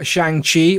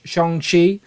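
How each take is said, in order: First: Shang-Chi with Shang rhyming with "hang"; flat "a" vowel in Shang-Chi. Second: Shang-Chi with Shang sounding like "Shong". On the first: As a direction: say Shang-Chi with a short A as in "bang". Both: Shown as a demonstration. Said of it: "Still need to learn how to say it properly".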